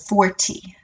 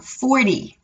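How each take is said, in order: First: The t sound is sharp and clear. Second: The t sound is soft, not sharp. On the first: This is how British speakers say it. "instead of forty" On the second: This is how American speakers say it. "I don't have that sharp T because I have an American accent"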